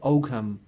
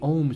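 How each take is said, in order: First: The G is pronounced in the middle. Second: The G is silent, like ohm. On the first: This is how the English say it. "English people pronounce it Ogham" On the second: This is how the Irish say it. "it's a silent uh, G, so we say Ohm script"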